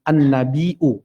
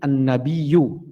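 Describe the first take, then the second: First: A glottal catch comes before the final vowel. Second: A y-glide replaces the glottal catch. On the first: This is the form the word's structure calls for. "an-nabiu harusnya" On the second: This is how a dialect avoids the hard sound. "Quraisy berat untuk menyebut hamzah. Jadi an-nabiyu"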